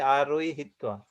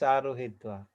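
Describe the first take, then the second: First: There is a y sound before the h. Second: There is no y sound before the h. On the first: The speaker calls it wrong. "we don't say Aruihitva" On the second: The speaker calls it right. "Just Aruhitva"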